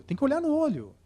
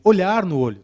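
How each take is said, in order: First: "no olho" lifted high; "tem que olhar no olho" sung out high on "no"; pitched-up emphasis. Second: "Olhar no olho" with a hard, loud "olhar"; emphatic. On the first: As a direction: raise the pitch sharply on "no olho". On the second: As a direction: stress on olhar. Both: Shown as a demonstration.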